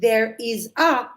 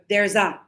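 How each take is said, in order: First: Each word is said separately and fully. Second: The words run together into one quick unit.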